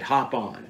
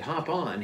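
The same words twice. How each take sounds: First: Said in the usual way. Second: Higher, softer questioning echo; puzzled echo. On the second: Retold or imitated. Hunter echoing the guide's odd order, retold puzzlement. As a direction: repeat it back as a baffled question.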